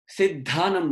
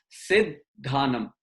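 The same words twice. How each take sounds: First: सिद्धानम said with a plain द and no aspiration; wrong pronunciation. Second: सिद्धानम slowly, द then aspirated ध; slow correct pronunciation. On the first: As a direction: say सिद्धानम the careless way, द only. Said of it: "but it's सिद्धानम". (गलत उच्चारण सिद्धानम, सिर्फ द) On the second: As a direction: stretch सिद्धानम so both द and ध are heard. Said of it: "पहले द है और फिर ध है". (धीरे से सही उच्चारण सिद्धानम, पहले द फिर ध) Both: Shown as a demonstration.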